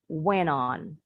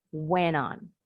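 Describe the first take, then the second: First: The T sounds like a quick D, American style. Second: The T sounds like a quick D, American style.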